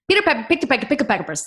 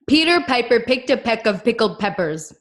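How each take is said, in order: First: It is said as fast as possible. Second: It is said at a moderate pace.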